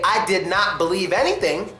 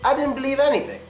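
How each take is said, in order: First: The words did not are fully pronounced. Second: Did not is reduced to a quick contraction. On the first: "I could say I did not believe anything" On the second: "or I could say I didn't believe anything"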